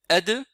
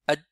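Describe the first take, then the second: First: The final consonant ends with a clear bounce. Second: The final consonant is held silent, barely heard. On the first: The speaker calls it right. "au lieu de dire ad" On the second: The speaker calls it wrong. "certains disent ad ... on n'entend même pas la lettre"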